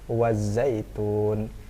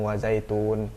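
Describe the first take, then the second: First: The middle consonant is held for longer. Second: The middle consonant is said short, without holding. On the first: The speaker calls it right. "agak ditahan" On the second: The speaker calls it wrong. "nggak langsung wazaitun"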